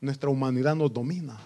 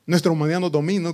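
First: Said in the usual way. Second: Louder faster Nuestra humanidad nos domina, stress on nuestra; emphatic repeat. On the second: Shown as a demonstration. Preacher hammering the point to the congregation, emphatic repeat. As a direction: drive the repeat home.

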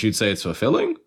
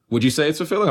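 First: Said in the usual way. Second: Pitched up, asking with a rise on "fulfilling"; direct question. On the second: Real, not acted. Host putting the question to the co-host, asking directly. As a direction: raise "fulfilling" into a real question. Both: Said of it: "I'm asking now".

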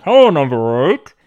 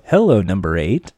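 First: Said in the usual way. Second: Low, sultry greeting; sexy voice. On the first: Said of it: "after you're hearing". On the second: Retold or imitated. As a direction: purr it low and seductive. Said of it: "this sexy voice go".

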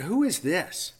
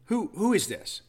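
First: Lofty, high scornful question; haughty derision. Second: High, drawn-out sneering question; haughty derision. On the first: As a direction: sneer it down at her. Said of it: "And I said it just like that, with that same haughty tone of derision". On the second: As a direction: look down your nose as you ask. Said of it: "with that same haughty tone of derision". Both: Retold or imitated.

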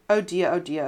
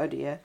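First: A touch of mock wailing. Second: The last oh dear sinks low and soft; fading wail. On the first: Old farmer grieves for his wife, mild wail. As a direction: lament it, mildly grieving. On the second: Old farmer's grief dies away, soft low wail. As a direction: let the grief trail off, much softer. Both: A narrator's reading. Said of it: "he wailed aloud".

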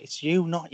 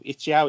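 First: "you" drawn out with a long oo; standard YOU. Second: "Yao" said louder, rhyming with cow; local YAO pronunciation. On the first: Shown as a demonstration. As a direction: slowly correct it to a clear "you". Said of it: "It's you, not Yao". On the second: Retold or imitated. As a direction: mimic others saying "Yao" for you. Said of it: "if you play with people go".

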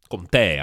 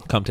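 First: "Comté" as kom-TAY; "Comté" with the accented é sounded as ay; corrected pronunciation. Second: Said in the usual way. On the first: Shown as a demonstration. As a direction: give "Comté" a clear final "tay". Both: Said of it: "the accent mark".

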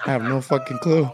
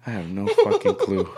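First: Hammed-up clueless protest; exaggerated exasperation. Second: Said in the usual way. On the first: Grandson asked what they're eating today, hammed-up exasperation. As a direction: exaggerate being totally at a loss. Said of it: "I wasn't talking like this". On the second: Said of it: "obviously, I wasn't talking like this".

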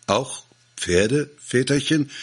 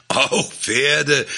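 First: Timid question rising high; worried, rising plea; anxious. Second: High, emphatic, falling declaration; triumphant, certain reply; proud conviction. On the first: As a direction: ask fearfully whether "Pferde" too. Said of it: "fragten ängstlich die Bauern". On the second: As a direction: announce it with chest puffed out. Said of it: "sagte stolze Brust und der Überzeugung". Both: A narrator's reading.

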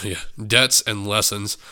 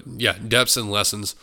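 First: Said in the usual way. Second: "debts" said with a stray p sound, "tepts"; "debts" tripped over with an extra p; slipped pronunciation. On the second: Real, not acted. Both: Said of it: "Sorry, debts".

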